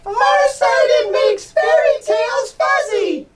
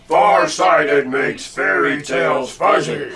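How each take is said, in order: First: It is said in a squeaky mouse voice. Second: It is said in a deep monster voice.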